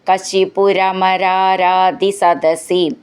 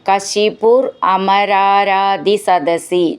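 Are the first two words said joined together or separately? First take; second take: joined; separately. First: The first two words are run together. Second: The first two words are said separately.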